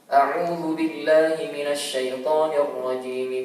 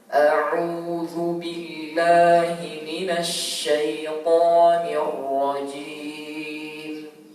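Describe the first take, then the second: First: It is recited quickly. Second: It is recited very slowly. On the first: "dengan cepat" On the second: "dengan sangat pelan ya"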